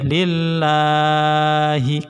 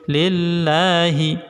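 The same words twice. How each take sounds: First: The la vowel is stretched too long. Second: The la vowel has a normal length. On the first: The speaker calls it wrong. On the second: The speaker calls it right.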